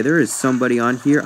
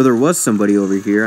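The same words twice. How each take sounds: First: "is" stressed to reverse the correction. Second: "was" stressed as a self-correction. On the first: Player finding an enemy after all, stress on "is". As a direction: lean on "is" in "there is somebody". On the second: Player correcting himself on a vanished enemy, stress on "was". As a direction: lean on "was" in "there was somebody". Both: Real, not acted.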